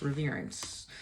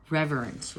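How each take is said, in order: First: Softly repeated. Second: Said in the usual way. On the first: Real, not acted.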